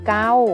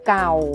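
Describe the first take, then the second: First: The syllable is said with a level mid tone. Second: The syllable is said with a low tone. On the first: "เสียงสามัญคือเกา" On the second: "เสียงเอกคือเก่า"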